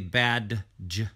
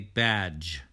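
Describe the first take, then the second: First: The word has a separate 'd' sound before the ending. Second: The word has no separate 'd' sound before the ending. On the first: The speaker calls it wrong. "We don't say badge" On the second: The speaker calls it right. "we say badge"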